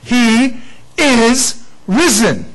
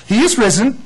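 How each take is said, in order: First: "He is risen" slow, leaning hard on "is"; stress on is. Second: "He is risen" with a lift on "is"; joyful proclamation; stress on is. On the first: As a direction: draw out "is" slowly and firmly. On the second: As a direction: ring it out, lifting "is". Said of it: "And I love this". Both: Shown as a demonstration.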